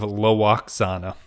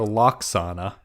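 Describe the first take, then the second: First: The name starts with an L followed by w. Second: The name starts with a plain L sound. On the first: The full form that follows the spelling. "the actual uh, distance and try to make the effort of Lwaxana, which is much more difficult to say" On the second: A simplified everyday form of the name. "some people just call her Loxana"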